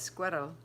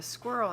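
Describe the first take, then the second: First: Squirrel said as two syllables, squer-rel, with a tapped middle; friend's pronunciation of squirrel. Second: Said in the usual way. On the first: Retold or imitated. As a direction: copy the friend's way of saying squirrel. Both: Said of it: "or as my friend Ashley says".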